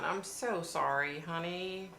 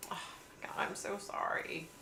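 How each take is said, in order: First: Said in the usual way. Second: Whispered sympathy. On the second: Real, not acted. Whispering her sorrow to a viewer whose dad just died. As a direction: breathe it out gently, barely voiced.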